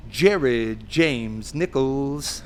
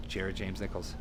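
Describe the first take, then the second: First: Long, drawn-out showman's name call; announcer introduction. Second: Said in the usual way. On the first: Retold or imitated. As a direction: stretch every syllable like a stage announcer. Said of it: "And he goes". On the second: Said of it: "And he's like".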